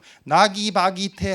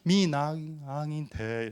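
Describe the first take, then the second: First: The middle 'gi' syllable is clearly pronounced. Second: The middle 'gi' syllable is barely heard. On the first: The speaker calls it wrong. "여기서 실수는 나기바기테 하면 실수입니다" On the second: The speaker calls it right. "기가 좀 안 들리게 해야 돼. 미나기테 이렇게 되겠죠?"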